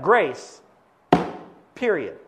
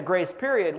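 First: "grace", long pause, then "period" as a final full stop; pause before PERIOD. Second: Said in the usual way. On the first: Shown as a demonstration. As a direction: split "grace" from "period" with a firm falling stop. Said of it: "but it goes like this".

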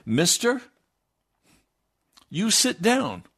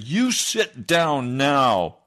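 First: Raised, higher voice ordering a man to sit; stern command. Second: Very slow, loud and final, each word weighed; slow stern command. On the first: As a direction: bark the order at the heckler. Preacher orders heckler to sit. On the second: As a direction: point at him and lay down the law. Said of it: "I pointed my right index finger at him". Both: Retold or imitated.

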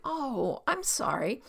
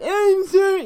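First: Gentle, sympathetic "Oh, I'm sorry"; understanding, unforced apology; genuine apology. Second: High, loud mocking "I'm sorry"; exaggerated squawked apology; wrong way to apologise. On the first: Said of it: "You're just like". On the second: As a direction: screech the apology insincerely. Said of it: "you don't say it like". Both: Shown as a demonstration.

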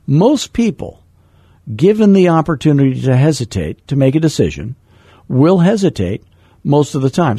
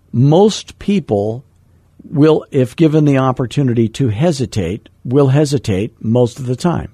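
First: The rule again, opening higher and more emphatic; quoting mentor Floyd. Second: Said in the usual way. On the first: Retold or imitated. Passing on what mentor Floyd taught, lightly voiced and emphatic. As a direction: repeat it as the mentor said it, pushing the key words. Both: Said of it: "Floyd taught me that".

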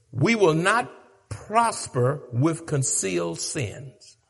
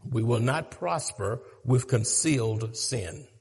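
First: Firm, deliberate point; slow emphatic statement. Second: Softer echo of the point; quieter repeat. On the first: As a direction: spell it out slowly, each word weighed. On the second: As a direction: drop the voice low and soft for the repeat. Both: Shown as a demonstration.

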